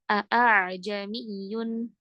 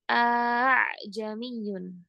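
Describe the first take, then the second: First: The second hamzah is a full glottal stop. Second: The second hamzah becomes a plain vowel. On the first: "Tidak boleh seperti hamzah" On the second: "Atau bacaannya seperti alif"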